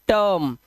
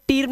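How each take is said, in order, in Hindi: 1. स्वर 'her' में 'er' जैसा बोला जाता है। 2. स्वर लंबे 'ee' जैसा बोला जाता है। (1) "इसे पढ़ते हैं टर्म" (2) "टीर्म नहीं है"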